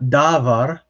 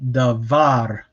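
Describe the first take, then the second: First: The stress is on the first syllable. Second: The stress is on the second syllable. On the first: The speaker calls it wrong. "It is not davar" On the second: The speaker calls it right. "we put the stress on here, the second syllable"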